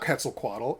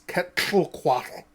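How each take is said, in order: First: The 'tl' is said as a plain English 't-l'. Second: The 'tl' is said as one special sound. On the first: The speaker calls it wrong. "it's not Quetzalcoatl" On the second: The speaker calls it right. "the murder face sound"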